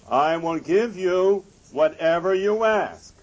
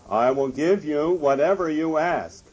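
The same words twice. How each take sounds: First: It is said at full, loudest volume. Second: It is said somewhat louder. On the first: "In his loudest voice" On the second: "a little louder"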